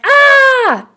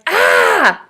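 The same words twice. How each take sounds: First: High, loud frightened scream; a full mock scream of fright; imitated scream. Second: A smaller, lighter cry of fright; a half-hearted imitated yelp; mock scared yelp. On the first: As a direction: shriek like a scared little kid. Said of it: "I was like". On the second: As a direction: play it down as not quite a scream. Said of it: "It wasn't a scream".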